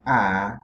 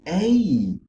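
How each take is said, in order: First: The vowel is short, as in rat. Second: The vowel is long, as in rate. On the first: "The sound of the A changes from A" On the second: "to A"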